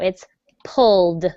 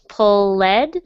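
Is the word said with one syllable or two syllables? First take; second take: one; two. First: The word is said with one syllable. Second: The word is said with two syllables. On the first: The speaker calls it right. "but no" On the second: The speaker calls it wrong. "It looks like it's two syllables"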